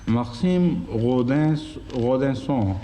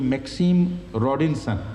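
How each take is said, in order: First: The name is said with French pronunciation. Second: The name is said with English pronunciation. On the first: "Rodinson is the French pronunciation" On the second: "The English pronunciation would be"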